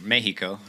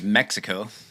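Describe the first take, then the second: First: The word is said with Spanish sounds. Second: The word is said with English sounds.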